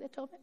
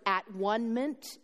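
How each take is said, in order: First: Said in the usual way. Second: "at one ment" said as three separate words, at, one, ment; split word. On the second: Shown as a demonstration. Preacher explaining the word atonement, spelled out as "at one ment". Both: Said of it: "that word at one ment".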